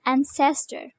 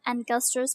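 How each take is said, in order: First: The middle consonant is an s sound. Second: The middle consonant is a k sound. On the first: The speaker calls it right. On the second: The speaker calls it wrong.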